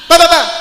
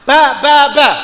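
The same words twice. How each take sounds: First: The syllables are rushed out very quickly. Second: The syllables are said at a measured pace. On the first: The speaker calls it wrong. "jangan kecepatan ... Hilang" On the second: The speaker calls it right. "Nah, semacam itu"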